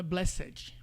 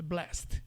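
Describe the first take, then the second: First: "blessed" in extra syllables, BLE-sséd-ji; wrong full blessed. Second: "blessed" as one syllable, blest; correct short blessed. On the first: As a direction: sound out the -ed of "blessed" with a final i. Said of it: "Não é". ("blessed" por extenso, "bléssedji") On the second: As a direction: end "blessed" on st, no vowel. ("blessed" abreviado, "blest") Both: Shown as a demonstration.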